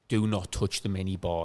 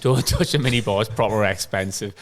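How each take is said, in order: First: Slow, hushed warning between roommates; low and slow, like a serious pact; mock stern warning. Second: The warning breaks into a laugh. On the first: Roommate warns his mate off the minibar, slow and hushed. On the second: Retold or imitated. Roommate repeats the minibar warning, laughing. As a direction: laugh through the word touch. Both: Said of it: "me and Con were like".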